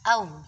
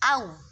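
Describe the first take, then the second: First: The vowel is bent toward another vowel. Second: The vowel is short and clear. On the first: The speaker calls it wrong. "bukan dibaca au, au seperti itu" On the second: The speaker calls it right. "seharusnya kan dibaca au"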